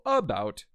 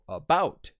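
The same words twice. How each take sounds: First: The stress is on the first syllable. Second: The stress is on the second syllable. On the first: The speaker calls it wrong. "you wouldn't go about. Doesn't sound right" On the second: The speaker calls it right. "you would put the apostrophe over the bout part of it"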